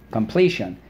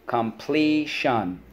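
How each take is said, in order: First: Said in the usual way. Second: Completion. stretched slowly syllable by syllable; slow drilled word. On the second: Shown as a demonstration. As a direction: model Completion. slowly for echoing. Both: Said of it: "so let's go".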